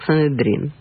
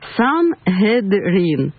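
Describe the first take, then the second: First: A middle sound is dropped, as in running speech. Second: Every sound is pronounced carefully and in full. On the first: The speaker calls it right. "В потоке речи это звучит как санедрин" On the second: The speaker calls it wrong. "если я сейчас попробую очень тщательно произнести по буквам"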